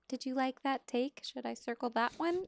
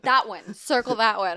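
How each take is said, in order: First: Tentative asking. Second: Loud, higher, emphatic call; vocal, decisive. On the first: Script supervisor checking with a busy director, tentative and higher. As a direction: check timidly, voice lifting at the end. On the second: Director telling the script supervisor which take, loud and decisive. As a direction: call it out with no doubt, imitating a director. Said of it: "they're vocal with me". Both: Retold or imitated.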